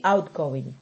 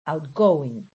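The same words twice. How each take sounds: First: "outgoing" with the stress on the first part, OUT; noun stress. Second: "outgoing" with heavy stress on GO, then falling; verb stress. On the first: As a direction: stress OUT in "outgoing", letting going fall away. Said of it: "if it is a noun". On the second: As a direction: lighter out, then punch GOING in "outgoing". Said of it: "turn it into a verb". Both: Shown as a demonstration.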